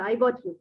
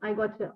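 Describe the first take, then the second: First: Got and you are said as separate words. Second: Got and you blend into one 'gotcha' sound. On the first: "got you" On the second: "means gotcha"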